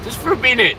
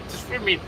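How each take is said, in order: First: High, louder plea for a minute; bright high pleading take. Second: High but much softer; hushed echo of the plea; soft repeat. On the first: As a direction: ask up high and eager. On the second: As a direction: say it again softly, almost to yourself. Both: Shown as a demonstration.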